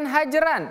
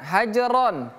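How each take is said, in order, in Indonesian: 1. Suku kata r memiliki vokal 'a' yang tipis. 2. Suku kata r memiliki vokal 'o' yang berat. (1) "Bukan hajaran" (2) "hajaron. Ro"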